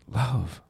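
The word is said with an expectant tone. "With some expectation"

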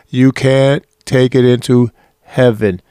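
It is said in a loud voice.

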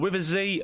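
The letter Z is said the American way, zee.

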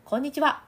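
It uses resonance in the nasal cavity.

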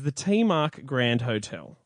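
The name is said with English pronunciation. "in English"

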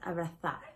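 The z is said like th, Spain style.

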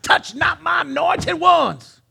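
It is said in a dramatic preacher voice.

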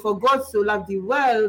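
It is said in a French accent.

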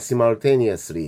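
It is said with a British accent.

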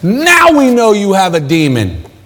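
It is said in a gloating, triumphant tone. The speaker calls it right. "Ha ha! Gotcha!"

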